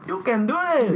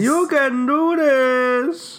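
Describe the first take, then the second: First: High mock cheerleader voice; mock pep talk. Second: High, slow sing-song encouragement; slow mock pep talk. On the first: Friends hyping a drinker up, high mock cheer. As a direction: chirp it up high like a hype coach. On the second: Friend echoing the hype back, high and slow. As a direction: stretch it out high and slow, teasing.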